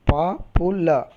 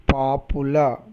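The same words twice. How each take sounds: First: "papula" slowed into pa, pu, la; syllable by syllable. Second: Said in the usual way. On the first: Shown as a demonstration. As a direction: spell out the three beats of "papula". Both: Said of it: "three syllables".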